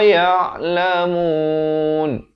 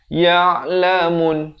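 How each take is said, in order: First: The vowel before the final n is stretched out. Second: The vowel before the final n is cut short. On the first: The speaker calls it right. "sekurang-kurang dua harakat, empat ataupun enam harakat" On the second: The speaker calls it wrong. "Jangan waqaf dengan ya'lamun, salah"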